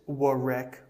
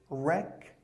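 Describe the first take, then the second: First: The w at the start is pronounced. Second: The w at the start is silent. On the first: The speaker calls it wrong. "Don't say" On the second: The speaker calls it right.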